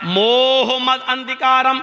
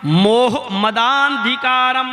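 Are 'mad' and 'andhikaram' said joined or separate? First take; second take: separate; joined. First: The words are said separately, not linked. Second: The words are joined with a lengthened vowel. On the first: The speaker calls it wrong. "मोह मद अंधिकारम मैंने अलग अलग पढ़ा है" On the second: The speaker calls it right. "मोहम्मद के दा को आ से मिलाया जाएगा और खींचा जाएगा"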